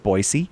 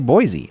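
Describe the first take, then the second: First: The middle consonant is a hissing S sound. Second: The middle consonant is a buzzing Z sound. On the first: The speaker calls it right. "I know it's Boise" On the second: The speaker calls it wrong. "I get in trouble with the people of Boise whenever I say Boise"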